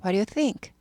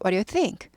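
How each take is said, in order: The two takes are said the same way.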